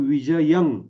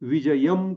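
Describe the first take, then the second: First: The word ends with an ng sound. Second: The word ends with an m sound. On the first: The speaker calls it right. "तशा पद्धतीनं न करता तो विजयं असाच होतो" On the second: The speaker calls it wrong. "विजयम करता येईल"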